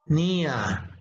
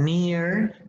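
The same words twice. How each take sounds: First: It is said with a British accent. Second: It is said with an American accent.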